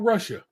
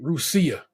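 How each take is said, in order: First: The name is said with its standard pronunciation. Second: The name is said with a different, local pronunciation. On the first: This is how the name is spelled. "Just how you spell Russia" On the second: This is how the town's residents say it. "they pronounce that shit Rusia"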